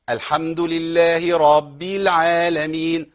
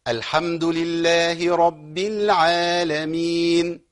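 First: رب stretched into راب with an added long a; wrong extra alif. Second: Slow, measured tajweed recitation; Quran recitation. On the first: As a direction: lengthen the a in رب wrongly. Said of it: "برضو ألف زائدة والله". (خطأ: مد الراء في رب بألف زائدة) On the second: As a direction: recite slowly, mind the doubled ba. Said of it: "إيه الخطأ ممكن يبقى فين هنا". (تلاوة مجودة بطيئة) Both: Shown as a demonstration.

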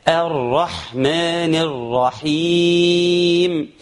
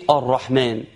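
First: الرحمن begun on a clean open "a", chanted slowly; correct clear hamza. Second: الرحمن begun on a heavy, dark "o"; wrong opening vowel. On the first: Teacher models the precise hamza, الرحمن recited with open "a". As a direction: chant الرحمن with a light "a" onset, long vowels. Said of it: "لازم نضبط الهمزة". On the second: Teacher shows learners what not to say, الرحمن with heavy "o". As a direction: say الرحمن as "or-rahman", rounded first vowel. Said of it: "ما نقولش إيه؟". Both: Shown as a demonstration.

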